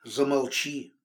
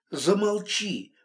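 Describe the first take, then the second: First: Said in the usual way. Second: "Замолчи" said higher and slowly, pressing each syllable; a slow, raised "Замолчи" that demands silence; insistent repeat. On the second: A narrator's reading. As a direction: repeat "Замолчи" slower and firmer to shut him up. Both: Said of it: "повторила я".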